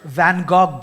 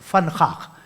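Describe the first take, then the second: First: It starts with v and has hard g sounds. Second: It starts with f and has throaty kh sounds. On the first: This is how most people say it. The speaker calls it wrong. "दुनिया वैन गॉग बोलती है" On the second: This is the native Dutch way. The speaker calls it right. "सही जो उच्चारण है वो फनखाख है"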